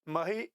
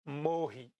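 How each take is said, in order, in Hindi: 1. पहला स्वर छोटा बोला जाता है। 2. पहला स्वर लंबा बोला जाता है। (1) "इस चौपाई में पूरा पढ़ेंगे तो कैसे पढ़ेंगे? ... लघु माना जाएगा" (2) "इसको पढ़ेंगे लिखित रूप में"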